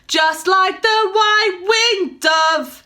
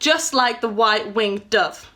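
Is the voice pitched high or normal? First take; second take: high; normal. First: It is spoken pulled up to a higher pitch. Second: It is spoken at a normal speaking pitch. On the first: "if I was to say it at the pitch that it is of the song" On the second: "You can hear how I say it"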